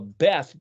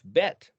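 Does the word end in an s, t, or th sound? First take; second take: th; t. First: The word ends with a th sound. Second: The word ends with a t sound. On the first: "Beth, B E T H" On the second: "is actually spelled Bet Yod Tav, Bet"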